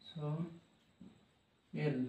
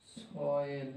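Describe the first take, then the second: First: "soil" very slow and soft, so, long pause, el; broken into syllables. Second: "soil" as one joined so-el, low and soft; soft test of "soil", syllables joined; sounded out whole. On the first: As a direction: split "soil" into two hushed parts. Teacher splitting word into parts. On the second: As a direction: quietly try "soil" in one piece. Teacher sounding out the word. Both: Shown as a demonstration.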